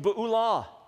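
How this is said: It is said with a Hebrew pronunciation. "It's the Hebrew Be'ulah"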